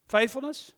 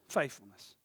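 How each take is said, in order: First: Faithfulness lifted high and louder, rising at the end. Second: Falling echo. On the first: Pastor calls the word out high to the church. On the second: Pastor echoes the word low to the church. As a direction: echo faithfulness back low, letting it fall. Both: Shown as a demonstration. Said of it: "repeating the word two ways".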